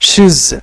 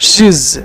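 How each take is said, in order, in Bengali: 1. একটা সংকুচিত দল, শেষে z ধ্বনি। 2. একটা সংকুচিত দল, শেষে z ধ্বনি।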